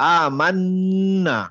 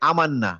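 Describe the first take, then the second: First: The n is held long with a nasal hum. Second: The n is short, without a held nasal hum. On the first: The speaker calls it right. "নাকের মধ্যে একটা সাউন্ড আসবে, নাজাল sound" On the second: The speaker calls it wrong. "আমি এভাবে বলবো না যে আমান্না"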